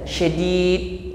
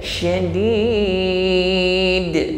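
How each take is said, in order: First: The final d is held without release. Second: The final d is released with a bounce. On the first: The speaker calls it wrong. "jangan ditahan syadid" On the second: The speaker calls it right. "pantulkan syadid"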